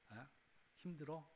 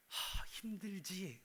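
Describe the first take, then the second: First: It is said plainly, without much feeling. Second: It is said with a heavy, sympathetic sigh.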